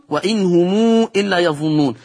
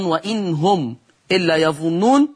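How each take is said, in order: First: وإن هم read "wa-in humuu", long ū before إلا; lengthened mim. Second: Said in the usual way. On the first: Shown as a demonstration. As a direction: draw out the م of هم into a long ū. (وإن هم بصلة الميم ومدّ مشبع) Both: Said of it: "في صلة ميم الجمع".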